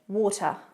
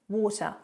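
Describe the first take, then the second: The two takes are said the same way.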